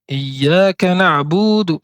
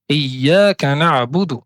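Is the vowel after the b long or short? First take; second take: long; short. First: The vowel after the b is drawn out long. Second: The vowel after the b is kept short. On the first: The speaker calls it wrong. "ajouter une prolongation naturelle" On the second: The speaker calls it right. "au lieu de dire"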